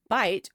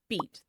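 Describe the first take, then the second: First: The vowel sounds like 'eye'. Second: The vowel sounds like 'ee'. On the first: This is the modern pronunciation. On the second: This is the pronunciation before the vowel shift.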